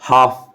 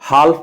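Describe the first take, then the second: First: The L is silent, with a long A sound. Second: The L sound is pronounced before the F. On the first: The speaker calls it right. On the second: The speaker calls it wrong.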